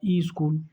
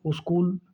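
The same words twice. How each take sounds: First: "ई स्कूल" said as i-skool; "ई स्कूल" with a leading i; added initial vowel. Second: "स्कूल" said as us-kool; "स्कूल" with an added leading u; extra initial vowel. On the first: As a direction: sound an extra "ई" before "स्कूल". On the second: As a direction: put a short u before "स्कूल". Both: Shown as a demonstration. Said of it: "अतिरिक्त उच्चारण किया है".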